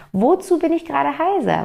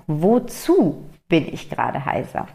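First: "Wozu bin ich gerade heiser?" with the whole question lifted much higher; stress on Wozu. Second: Said in the usual way. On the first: Shown as a demonstration. Recasting her question as "Wozu", asked much higher. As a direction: lean hard into the new question word "Wozu", pitched up. Besser noch wozu statt warum.

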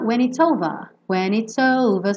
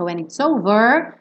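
First: OVER sem R, "ôuva"; R britânico. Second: OVER com R final enrolado; R americano enroladinho. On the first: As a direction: termine OVER em A aberto, sem enrolar. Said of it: "pronúncia mais britânica". (OVER à britânica, R mudo) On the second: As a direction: enrole a língua no fim de OVER. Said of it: "fazer o R enroladinho da pronúncia americana". (OVER à americana, com R) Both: Shown as a demonstration.

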